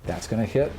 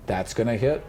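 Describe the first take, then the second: No difference in how they are said.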